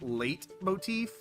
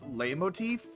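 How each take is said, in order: First: The T sound is clearly pronounced. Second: The T sound is not pronounced.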